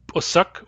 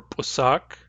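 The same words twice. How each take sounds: First: "pusak" with a short second vowel; "pusak", ending short like suck; first variant pronunciation. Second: "pusak" with a long second vowel; "pusak", ending in a lengthened saak; alternative pronunciation. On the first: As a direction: say "pusak" with a brief uh in the last syllable. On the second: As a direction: say "pusak" with a drawn-out ah. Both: Shown as a demonstration. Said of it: "pusak or pusak".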